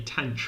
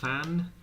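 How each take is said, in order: First: It begins with a plain t sound. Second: It begins with a th sound. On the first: "I say tench for this one" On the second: "pronouncing it like the H's over here between the T and the A"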